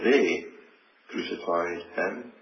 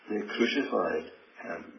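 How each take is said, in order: First: The stress is on the word they. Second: The stress is on the word crucified. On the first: Sinful, puny men were the ones who did it. "to think of they" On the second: The manner of death was crucifixion. "that word in the middle"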